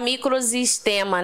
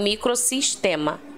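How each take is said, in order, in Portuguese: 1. A consoante do meio soa como Z. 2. A consoante do meio soa como S. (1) "Se você deixar um único S entre duas vogais, o som geralmente é de Z. E aí não poderia ficar" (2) "a gente dobra o S pra gente falar corretamente"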